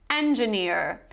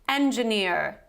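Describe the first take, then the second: First: It is said in an American accent. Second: It is said in an American accent.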